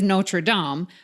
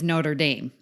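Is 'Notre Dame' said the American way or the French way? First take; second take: French; American. First: It is said with a French-style pronunciation. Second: It is said with an American-style pronunciation. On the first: This is how the movie title is said. "the movie, and the reason I know is Notre Dame" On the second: This is how the football team's name is said. "but the football team is Notre Dame"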